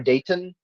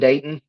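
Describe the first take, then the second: First: The middle t is clearly pronounced. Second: The middle t is dropped. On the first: The speaker is from out of town. "People from out of town will say" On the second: The speaker is a local. "they don't say the T"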